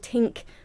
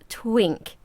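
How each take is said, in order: First: The name is said without a w sound. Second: The name is said with a w sound. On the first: The speaker calls it wrong. "that doesn't sound quite right" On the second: The speaker calls it right. "It's Twink"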